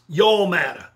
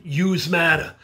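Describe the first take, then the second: First: Texas accent, "Y'all" drawn out as yawl, a bit louder. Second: Brooklyn accent, "Yous" said as one word, yooz, with a falling end. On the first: Speaker leads students in the Texas version, Texas accent. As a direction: say "Y'all matter" like a Texan. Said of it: "you're from Texas". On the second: Speaker leads students in the Brooklyn version, Brooklyn accent. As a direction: say "Yous matter" like a New Yorker from Brooklyn. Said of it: "Say it with me. You're from Brooklyn". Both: Shown as a demonstration.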